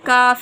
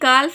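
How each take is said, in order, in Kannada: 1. F ಮೊದಲು L ಶಬ್ದ silent ಆಗಿರುತ್ತದೆ. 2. F ಮೊದಲು L ಶಬ್ದ ಉಚ್ಚರಿಸಲಾಗುತ್ತದೆ. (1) "ಎಲ್ ಸೈಲೆಂಟ್ ಆಗುತ್ತೆ" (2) "ಕಾಲ್ಫ್ ಎಂದು ನಾವು ಉಚ್ಚರಿಸಬಾರ್ದು"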